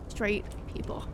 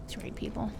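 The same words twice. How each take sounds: First: Soft unvoiced muttered repeat; whispered jab repeated; whispered aside again. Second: Soft unvoiced sigh of exasperation; whispered jab at straight people; whispered aside. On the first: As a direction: breathe it out even softer. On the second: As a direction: breathe it out under your breath. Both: Real, not acted.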